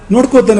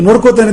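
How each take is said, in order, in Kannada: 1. ಇದನ್ನು ಮೃದು, ಕಾಳಜಿಯ ಧ್ವನಿಯಲ್ಲಿ ಹೇಳಲಾಗಿದೆ. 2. ಇದನ್ನು ವೈರತ್ವದ, ಬೆದರಿಕೆಯ ಧ್ವನಿಯಲ್ಲಿ ಹೇಳಲಾಗಿದೆ. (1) "ಮಗುವನ್ನು ನೋಡ್ಕೋತಾನೆ" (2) "ಎದುರಾಳಿಯನ್ನು ವೇರಿಯನ್ನು ನೋಡ್ಕೋತಾನೆ ಅಂತ ಅನ್ನುವಾಗ ಧ್ವನಿ ಪೂರ್ತಿ ಬೇರೆ ಇದೆ"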